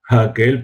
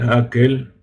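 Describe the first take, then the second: First: The word starts with a soft breath of air. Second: The word starts directly with the vowel.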